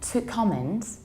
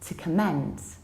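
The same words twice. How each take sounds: First: The stress is on the first syllable. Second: The stress is on the second syllable. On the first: "again, to comment" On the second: "stress the second syllable and say"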